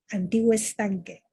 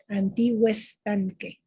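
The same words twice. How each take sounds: First: The two words run together as one. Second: The two words run together as one.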